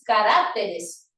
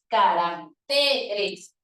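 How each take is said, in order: First: The stress falls on the syllable rac. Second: The stress falls on the syllable te. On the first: The speaker calls it wrong. "lo correcto no es caracteres" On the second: The speaker calls it right. "el acento se debe desplazar a la siguiente sílaba"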